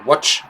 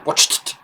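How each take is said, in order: First: "watch" ending on ch, no t; the wrong version: "watch" with no t; no final t. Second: "watched" ending in a clear t; audible final t. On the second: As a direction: make the t of "watched" heard. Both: Shown as a demonstration. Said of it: "Il faut entendre le T à la fin".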